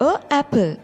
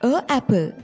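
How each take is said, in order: No difference in how they are said.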